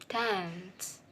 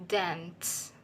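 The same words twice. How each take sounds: Both takes have the same delivery.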